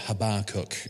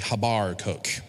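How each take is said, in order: First: It is said in an American accent. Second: It is said in a West Country accent. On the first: "if you're from America" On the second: "if you're from the West Country, it's probably Habarcook"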